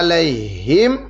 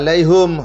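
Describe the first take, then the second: First: The last syllable has an i vowel. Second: The last syllable has a u vowel. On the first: "hanya di kasrah" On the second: "hanya di domah"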